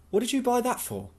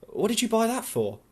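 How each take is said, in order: First: Put-on lightly raised young woman's voice, questioning; a raised, pointed question from Louise; Louise voiced higher. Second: Put-on raised young woman's voice, pressing the question; Louise voiced higher. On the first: Louise asks Tom why he bought the wine, voiced higher. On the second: Louise presses Tom about the red wine, voiced higher. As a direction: press him, higher and pointed.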